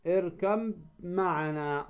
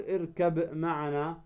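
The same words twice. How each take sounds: First: "اركب معنا" as irkam-ma'ana, one long held m; ba merged into mim. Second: "اركب معنا" with a released b in اركب, then a separate m; wrong unmerged ba. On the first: Teacher modelling recitation for students, ب of اركب merged into a held م. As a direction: slowly melt the ب of اركب into the م of معنا. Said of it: "الباء في الميم". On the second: Teacher showing students what not to say, ب left unmerged in اركب. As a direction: sound the ب of اركب apart from معنا. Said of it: "لا، تدغم الباء في الميم". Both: Shown as a demonstration.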